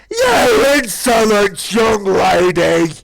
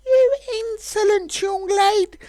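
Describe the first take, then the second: First: Very loud, very slow roaring cry; furious dragon shout. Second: High, slow, offended scolding; indignant dragon. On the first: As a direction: bellow it in outrage. Dragon scolding, escalated. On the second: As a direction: look down on her with disdain. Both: Acted.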